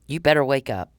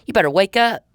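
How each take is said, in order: First: Said in the usual way. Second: Raised, higher warning shout; sharp warning. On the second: Real, not acted. Warning Mister Powell to wake up, raised and sharp. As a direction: jolt him awake with it.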